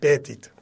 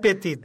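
First: The name is pronounced the English way. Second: The name is pronounced the French way. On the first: "dar în engleză probabil fi Pettit" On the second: "în franceză e Pettit"

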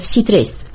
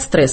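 First: A vowel is inserted between s and t. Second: The consonants s and t are said together. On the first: The speaker calls it wrong. "они говорят «ситрес»" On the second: The speaker calls it right. "не говорят «стресс»"

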